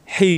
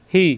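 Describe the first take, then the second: First: "হি" with a tight pharyngeal h; strong constricted h in "হি"; pressed throat ha. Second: No squeeze on "হি"; easy glottal h in "হি"; light ha. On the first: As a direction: squeeze "হি" from the throat. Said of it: "এই হি চাপ দিয়ে". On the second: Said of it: "এই হা দিয়ে হবে না". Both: Shown as a demonstration.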